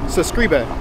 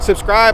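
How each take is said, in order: First: It is said in a foreign accent. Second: It is said in a plain native accent. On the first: This is how foreigners say it. "I pronounce it subscribe. Cause I'm foreign" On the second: This is how non-foreigners say it. "I've never like understood why y'all pronounce it like that"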